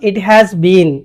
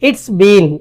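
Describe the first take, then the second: First: Every word is said in full form. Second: It is contracted into a short form. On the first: The speaker calls it wrong. "ఇట్ హ్యాస్ బీన్ అని ఎక్కువగా పలకరు" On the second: The speaker calls it right. "ఇట్స్ బీన్ అని పలుకుతారు"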